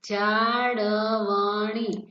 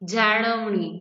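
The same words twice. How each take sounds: First: The word is read slowly and carefully. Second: The word is read quickly and smoothly. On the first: "હું આ ધીરે ધીરે વાંચતી હતી" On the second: "આ રીતે ... ફટાફટ વાંચી શકશો"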